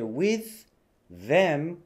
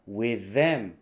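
First: Both th sounds are said separately. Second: The two th sounds merge into one.

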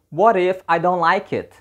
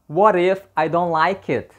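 First: The words are linked and blended together. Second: The same.

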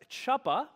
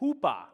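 First: The word begins with a hard 'ch' sound. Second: The word begins with a soft 'h' sound. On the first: It is read the way it looks written. "it looks like they're pronounced as chuppa" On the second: It is said the way the group will say it. "we're going to pronounce it as hoopa"

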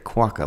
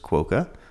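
First: The first syllable sounds like 'guac'. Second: The first syllable does not sound like 'guac'. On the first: The speaker calls it right. "like guacamole" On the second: The speaker calls it wrong. "I have said it wrong before"

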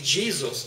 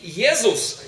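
First: The name is pronounced the English way. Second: The name is pronounced the German way. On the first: "по-английски Jesus" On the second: "по-немецки Jesus"

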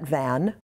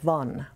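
First: The vowel rhymes with 'can'. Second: The vowel rhymes with 'one'. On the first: The speaker calls it wrong. "We would pronounce that Van" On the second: The speaker calls it right. "it's more like the number one with the V in front of it"

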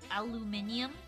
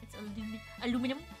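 First: The word is said with five syllables. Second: The word is said with four syllables. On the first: This is the British form of the word. "I like the silly British spelling" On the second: This is the usual form where the speaker lives. "Aluminum is proper here"

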